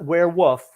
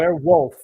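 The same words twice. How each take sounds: First: The L sound in wolf is left out. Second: The L sound in wolf is clearly pronounced. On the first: The speaker calls it wrong. "not werewolf" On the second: The speaker calls it right. "There's an L in that word"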